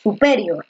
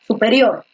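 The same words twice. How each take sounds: First: "superior" with the stress moved forward onto "pe"; misplaced stress. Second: "superior" with the voice's force on "rior"; stress on final syllable. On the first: Teacher testing where the stress falls, "superior" wrongly stressed on PE. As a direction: say "superior" as su-PE-rior. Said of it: "¿En dónde se queda mejor?". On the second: Teacher showing students the prosodic accent, "superior" stressed on RIOR. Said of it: "en erior es donde recae la mayor fuerza de voz". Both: Shown as a demonstration.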